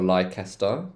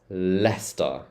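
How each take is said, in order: First: It is not said like two-syllable 'less-ter'. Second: It is said like two-syllable 'less-ter'. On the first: The speaker calls it wrong. "It's not Leicester" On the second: The speaker calls it right. "think of it as less, stir"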